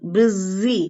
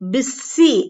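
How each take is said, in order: First: The middle consonant is a z sound. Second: The middle consonant is an s sound. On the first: The speaker calls it right. "இசட் sound பிஸி அப்படிங்கிறது வரும்" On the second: The speaker calls it wrong. "எஸ் sound வராது"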